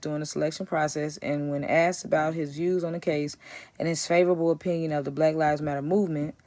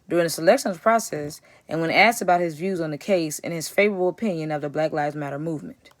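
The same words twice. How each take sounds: First: It runs on without a break after 'process'. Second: There is a clear break after 'process'.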